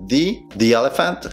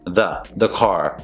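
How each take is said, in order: First: Slow "dee, dee elephant"; "thee" before vowel. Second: Slow, lower "duh, duh car"; schwa before consonant. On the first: Teacher showing the vowel rule, slow "thee" pronunciation. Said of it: "si antecede una vocal". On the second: Teacher showing the consonant rule, slow schwa pronunciation. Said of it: "Si antecede una consonante". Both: Shown as a demonstration.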